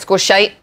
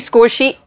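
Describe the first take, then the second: First: The second word has an 'eye' vowel. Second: The second word has an 'ee' vowel. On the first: This slip sounds like a swear word. The speaker calls it wrong. "It came out score shite" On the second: This is the intended word. The speaker calls it right. "I tried to say score sheet"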